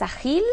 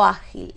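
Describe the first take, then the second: First: "ágil" wrongly stressed at the end, a-GIL; stress on last syllable. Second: "ágil" stressed at the start, Á-gil; stress on first syllable. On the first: Teacher testing where stress falls, "ágil" said as a-GIL. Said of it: "¿Es ágil o ágil?". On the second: Teacher offering the correct option, "ágil" said as Á-gil. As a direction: hit the Á of "ágil", then drop. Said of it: "Es ágil". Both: Shown as a demonstration.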